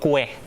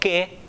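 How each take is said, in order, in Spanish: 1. Se dice con sonido de w después de la k. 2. Se dice sin sonido de w después de la k. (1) "no digo cue" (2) "cuando yo digo que"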